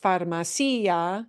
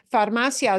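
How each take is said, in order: First: Farmacia as far-ma-CEE-a; wrong stress on CI. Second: Farmacia as far-MA-cia; correct stress on MA. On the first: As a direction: punch the i in farmacia, two-syllable ending. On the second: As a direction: punch "ma" in Farmacia, glide through "cia". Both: Shown as a demonstration. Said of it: "is not pronounced farmacia".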